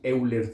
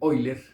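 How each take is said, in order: First: The name is said as spelled in Spanish. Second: The name is said with German pronunciation. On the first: "aquí diremos Euler tal y como se escribe" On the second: "creo que se pronuncia en alemán Euler"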